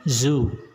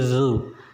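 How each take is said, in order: First: It begins with a buzzing z sound. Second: It begins with the tongue between the teeth. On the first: The speaker calls it wrong. "Jadi bukan zu ya" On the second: The speaker calls it right. "ujung lidahnya sedikit kita keluarkan ke depan"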